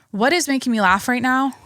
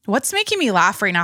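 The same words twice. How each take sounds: First: IS lifted higher in the question; stress on IS. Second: Said in the usual way. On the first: Real, not acted. Podcaster searching for something to lighten things up, stress on IS. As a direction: punch the word IS, really wondering.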